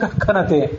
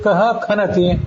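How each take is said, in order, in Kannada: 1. h ಮುಂದಿನ ವ್ಯಂಜನದೊಂದಿಗೆ ಬೇಗ ಬೆರೆತುಬಿಡುತ್ತದೆ. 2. h ತನ್ನದೇ ನಿಧಾನ, ಪ್ರತ್ಯೇಕ ಉಚ್ಚಾರಾಂಶ.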